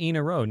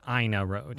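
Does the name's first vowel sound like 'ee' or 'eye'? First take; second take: ee; eye. First: The name begins with an 'ee' sound. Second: The name begins with an 'eye' sound. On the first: The speaker calls it right. "but it is actually Ena Road" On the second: The speaker calls it wrong. "Almost everybody, it seems nowadays, is calling Ena Road"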